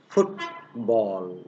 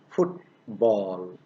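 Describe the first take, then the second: No difference in how they are said.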